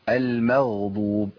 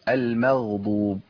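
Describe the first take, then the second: The two takes are said the same way.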